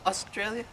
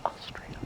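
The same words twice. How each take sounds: First: Said in the usual way. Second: Whispered under the breath. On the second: Real, not acted. [name] whispers a prompt to himself, a voiceless whisper. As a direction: breathe it as a secret aside.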